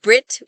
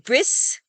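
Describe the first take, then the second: First: The final sound is a T. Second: The final sound is an S. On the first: This is how most speakers say it. "In most accents, it is always pronounced like a T"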